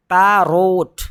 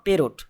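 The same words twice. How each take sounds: First: पैरोट with the double r stretched, loud; stretched parrot; correct parrot, drawn out. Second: पेरोट short and plain, r not held; wrong parrot. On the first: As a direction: hold the r in पैरोट. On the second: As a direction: show the clipped पेरोट. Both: Shown as a demonstration. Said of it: "not पेरोट".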